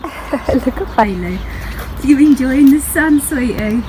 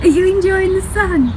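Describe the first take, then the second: First: High, slow sing-song pet talk; sweet-talking Bailey the dog in the sun. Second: Much higher, squeaky doggy-voice question. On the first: Cooing at her dog Bailey. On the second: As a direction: coo it even higher at the pet. Repeats question to the dog. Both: Real, not acted.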